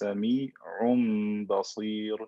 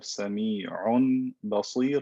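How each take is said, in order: First: A nasal m sound comes before the b. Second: A clear n sound comes before the b.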